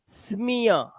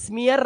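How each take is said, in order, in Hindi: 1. शब्द एक स्वर पर खत्म होता है, उसमें r नहीं है। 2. शब्द एक सुनाई देने वाली r ध्वनि पर खत्म होता है। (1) "ई ए का उच्चारण आपको इया करना है" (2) "स्मियर नहीं, रा नहीं करना है।"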